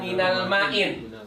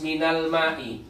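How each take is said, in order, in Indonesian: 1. Kata terakhir berakhir dengan bunyi n tambahan. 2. Kata terakhir berakhir dengan vokal, tanpa n. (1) "tidak boleh dibaca minal ma'in" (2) "harus minal ma'i"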